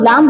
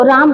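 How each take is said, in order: First: लाम, first sound L instead of R; child's lisp. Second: Said in the usual way. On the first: Shown as a demonstration. Teacher illustrates lisping to class, L-for-R लाम. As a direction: swap R for L in लाम. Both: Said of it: "तो बच्चा क्या है".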